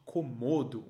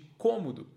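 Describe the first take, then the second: First: The stress is on the second syllable. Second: The stress is on the first syllable. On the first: It is the usual everyday pronunciation. "Mas nós normalmente dizemos dragão de Komodo" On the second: It rhymes with the word for room. "o [name] pronuncia a palavra Komodo como cômodo, porque então rima"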